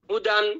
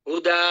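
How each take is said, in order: First: The word ends with an n sound. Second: The word ends on a long vowel. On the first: The reader continues without stopping. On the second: The reader stops on this word.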